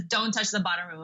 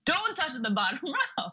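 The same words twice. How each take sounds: First: Said in the usual way. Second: Higher quote breaking into a laugh; laughing through the quote. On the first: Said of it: "And he says". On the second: Retold or imitated. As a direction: giggle mid-line while retelling the robber. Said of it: "and he was like".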